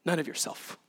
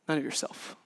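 First: Said in the usual way. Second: Softer, breathed echo; whispered repeat. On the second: Shown as a demonstration. Pastor echoes the point in a hushed whisper. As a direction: let the repeat fall to a whisper.

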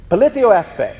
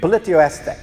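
First: Politio este, said as po-LI-thio ES-te, a little higher and firmer; Greek said out slowly. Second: Said in the usual way. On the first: Shown as a demonstration. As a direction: model the Greek Politio este clearly for the congregation to repeat. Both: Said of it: "Now say it one more time".

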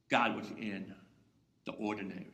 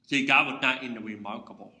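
First: Hushed. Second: Said in the usual way. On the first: Acted. Answer dropped to a hush.

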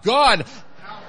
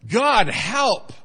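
First: Louder and higher, really wanting help; urgent cry for help. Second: Loud, higher plea to God; loud cry for help. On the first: Preacher leading congregation, urgent loud cry. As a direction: cry out like you mean it. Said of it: "say it like you really want his help". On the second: Echoing the loud congregant, loud cry. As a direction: call out for help with force. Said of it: "you said that real loud". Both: Shown as a demonstration.

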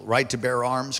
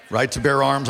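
First: Said in the usual way. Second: RIGHT TO BEAR ARMS louder, punched out; emphatic repeat. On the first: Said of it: "Come on, Alaskans". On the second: Real, not acted. Pastor prodding Alaskans for a response, louder emphatic repeat. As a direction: say it again to get a response. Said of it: "I'm gonna say it again".

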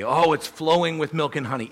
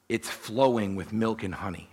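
First: A bright, lifted "Oh, it's flowing with milk and honey"; mock gushing quote. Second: Said in the usual way. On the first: Shown as a demonstration. Preacher echoing what the Israelites used to say, mock gushing. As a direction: sell the old saying with mild mock delight. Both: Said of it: "that was what they used to say".

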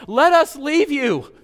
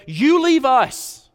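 First: High, loud, slow pleading demon voice; preacher voicing the demons begging to leave. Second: High, loud, very slow pleading townsfolk; preacher voicing the frightened town begging Jesus to go. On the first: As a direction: plead in a raised, dragged-out mock whine. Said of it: "The demons begged". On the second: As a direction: drag out the plea high and loud, hammed up. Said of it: "The town begged".

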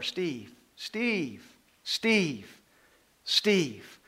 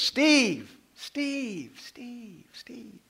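First: Each Steve a little louder than the last; calling, growing louder. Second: Starts loud, fades into a whisper; from a loud call down to a whisper; fading call. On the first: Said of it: "my name is louder". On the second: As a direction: let each Steve drift further away until only breath is left. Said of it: "Steve starts loud, but the further away it gets". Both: Retold or imitated.

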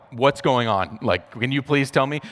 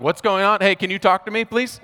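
First: Said in the usual way. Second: Much higher and louder, pleading for an answer; frantic high plea. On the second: Retold or imitated. New dad begging rushing nurses for answers, panicked high plea. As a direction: voice jumps up in retold panic.

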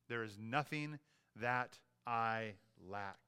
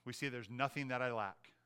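First: "nothing that I lack" drawn out word by word; slow emphatic restatement. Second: Said in the usual way. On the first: Real, not acted. Preacher driving home point number three, "nothing that I lack" slow and deliberate. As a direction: pause between words in "that I lack", slowly. Verse repeated slowly for emphasis.

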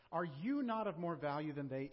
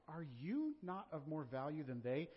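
First: Said in the usual way. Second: You underlined with a rising tune, slow delivery; slow down and lean on you as if underlined; Are you not, with you emphatic; stress on you. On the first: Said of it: "you is emphatic". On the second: Shown as a demonstration. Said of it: "you is emphatic. It's like it's underlined".

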